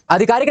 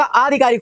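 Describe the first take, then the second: First: आधिकारिक opened with a short a; wrong short first vowel. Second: आधिकारिक opened with a long aa; long first vowel. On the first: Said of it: "नहीं होता". (आधिकारिक, शुरू में छोटा अ) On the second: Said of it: "आ की मात्रा हो जाएगी". (आधिकारिक, शुरू में लंबा आ) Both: Shown as a demonstration.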